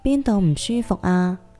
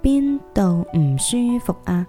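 First: It is said at normal speed. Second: It is said somewhat slowly.

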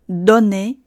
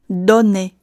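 Both takes have the same delivery.

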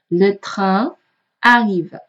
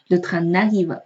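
First: The n of train is not linked onward. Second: The n of train runs into arrive. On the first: The speaker calls it right. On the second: The speaker calls it wrong.

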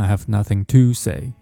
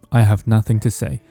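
First: The word 'to' is said with its full vowel. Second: The word 'to' is reduced to a light t. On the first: The speaker calls it wrong. "不要读成" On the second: The speaker calls it right. "这个to 我们可以把它弱读成t 就可以了"

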